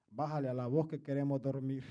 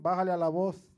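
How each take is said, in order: First: Much softer and lower, a mock sleepy wife; imitating wife, hushed. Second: Softer, mock-hushed wife's message; imitating wife, hushed. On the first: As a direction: hush it like a wife asking for quiet at night. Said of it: "y mi esposa me decía antes". (imitando a la esposa, bajito y grave) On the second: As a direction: playfully quote the wife under your breath. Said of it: "mi esposa a veces". (imitando a la esposa en voz baja)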